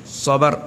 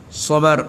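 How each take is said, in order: The two takes are said the same way.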